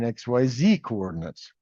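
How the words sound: Z is said 'zee', American style.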